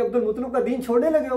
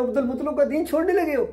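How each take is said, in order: First: Quick, reproachful taunt; taunting clan. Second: Quick taunt pushed higher and harder. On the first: The gathered clan reproaching the dying uncle, quick and accusing. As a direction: rattle it off as an accusing relative. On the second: The clan pressing the uncle again, fast and sharper. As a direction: repeat the accusation with more heat. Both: Retold or imitated. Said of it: "कहना शुरू हो गए कि".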